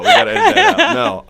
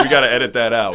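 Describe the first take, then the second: First: Much higher, louder squeal through laughter; mock squeaky panic. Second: Laughing, a bit louder, at his own slip. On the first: Repeating his plea to the hosts, mock squeal. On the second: Real, not acted. To the hosts about his slip, laughing. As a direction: laugh it off as he asks for the cut. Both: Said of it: "should've said, should've said that".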